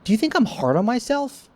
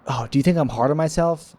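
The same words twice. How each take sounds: First: Asked much higher, half-joking; high-pitched self-mocking question. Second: Said in the usual way. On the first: Shown as a demonstration. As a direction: toss it up high like teasing yourself.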